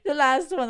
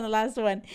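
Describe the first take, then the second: First: Giggling through the words, louder and higher; laughing. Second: Said in the usual way. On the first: Real, not acted. Giggling to viewers about the last couple. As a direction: laugh it out before getting serious.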